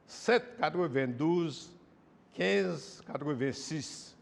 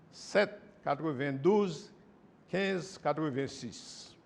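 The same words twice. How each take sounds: The two takes are said the same way.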